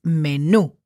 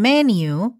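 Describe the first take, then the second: First: "menú" said the Spanish way, meh-NOO, stress on the final ú; slow "menú" with the last syllable stressed; Spanish stress on the end. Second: "menu" said the English way, MEN-yoo, stress on the first syllable; English pronunciation. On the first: Spanish teacher correcting students to Spanish meh-NOO. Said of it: "it's menú". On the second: Spanish teacher showing students the English way: MEN-yoo. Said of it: "Instead of being menu". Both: Shown as a demonstration.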